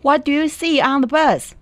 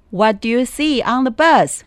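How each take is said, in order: Both takes have the same delivery.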